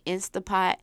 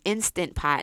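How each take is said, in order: First: The 'nt' sound in the middle is dropped. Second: The 'nt' sound in the middle is pronounced. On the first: The speaker calls it wrong. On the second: The speaker calls it right.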